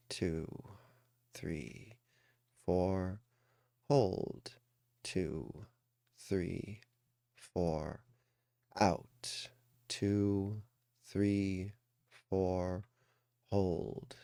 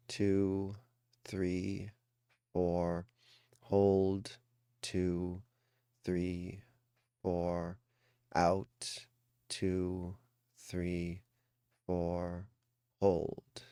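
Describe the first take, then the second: No difference in how they are said.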